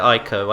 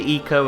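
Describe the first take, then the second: First: The name begins with an 'eye' sound. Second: The name begins with an 'ee' sound. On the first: "some people pronounce it Ico" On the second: "some people pronounce it Eco"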